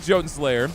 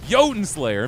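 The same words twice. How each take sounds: First: "Jotun" said as "CHO-tun", hard ch at the start; ch-sound Jotun. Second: Fix it: "Jotun" begins with a y, YO-tun Slayer; corrected pronunciation. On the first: Real, not acted. Streamer naming the game he likes, saying "Jotun" as CHO-tun. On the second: Shown as a demonstration. Streamer correcting himself for chat, "Jotun" as YO-tun. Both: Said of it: "Why am I saying Jotun Slayer?".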